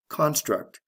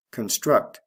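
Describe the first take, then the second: First: "construct" as the noun CON-struct; stress on first syllable. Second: "Construct" as the verb con-STRUCT; stress on second syllable. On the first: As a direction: CON high, then falling in "construct". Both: Shown as a demonstration. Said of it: "Notice the stress changes in the same way".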